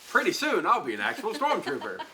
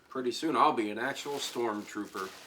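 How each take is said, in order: First: It is said with clear, lively excitement. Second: It is said flatly, with little excitement. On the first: The speaker calls it right. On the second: The speaker calls it wrong.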